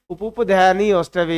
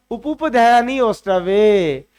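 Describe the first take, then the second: First: Said in the usual way. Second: उपुपध्यानी ओष्ठवे drawn out slowly, syllable by syllable; slow recitation. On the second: Shown as a demonstration. Teacher reciting the rule to the students, slow and deliberate. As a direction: lay the rule out slowly so students can follow. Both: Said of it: "हमारा सूत्र क्या है".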